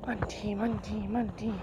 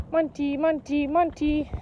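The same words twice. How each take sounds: First: Softer, lower sing-song name; soft call. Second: Said in the usual way. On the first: Real, not acted. Owner softly cooing her dog's name, hushed and lower. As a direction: coo the name gently. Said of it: "soft calling". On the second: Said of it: "normal calling".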